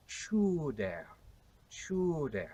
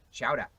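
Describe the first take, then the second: First: "chowder" as CHOO-dair, long OO; Shakespearean pronunciation. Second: "chowder" as chow-dah, final R dropped, Boston accent; Paul Revere, Boston accent. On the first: Historian showing Shakespeare's way, "chowder" as choo-dair. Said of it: "William Shakespeare would have said". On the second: Historian contrasting Revere with Shakespeare, Boston accent. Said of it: "Paul Revere has a regional accent". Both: Shown as a demonstration.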